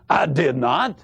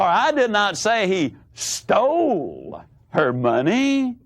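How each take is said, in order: First: The stress is on "not". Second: The stress is on "stole".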